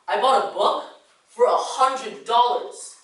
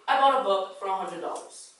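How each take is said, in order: First: Key words are stressed with varied pitch. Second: It is said flatly on one pitch. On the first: The speaker calls it right. "stressing keywords and changing the pitch" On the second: The speaker calls it wrong. "That sounded plain and boring and monotone"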